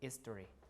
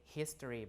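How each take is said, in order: First: It begins directly with the vowel. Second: It begins with an audible h sound. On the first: "but history" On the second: "some people don't say history"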